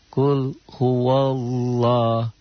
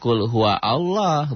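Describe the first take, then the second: First: Allah is linked directly onto huwa. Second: Allah is said as a separate word. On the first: The speaker calls it right. "Alifnya di situ alif wasal. Enggak dibaca" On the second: The speaker calls it wrong. "Jangan kul huwa Allah"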